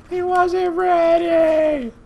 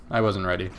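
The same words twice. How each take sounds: First: High, very drawn-out mock cry; mock wail. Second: Said in the usual way. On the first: Gamer mocking their own preschool meltdown, mock wail. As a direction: wail it slowly like an overwrought parent.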